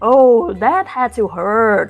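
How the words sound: It is said in a put-on announcer voice.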